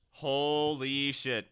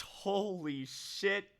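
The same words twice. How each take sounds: First: Stunned. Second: Much higher, slow, awed; stunned disbelief. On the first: Reading a big donation. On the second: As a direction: let the disbelief stretch it out. Second big donation. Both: Real, not acted.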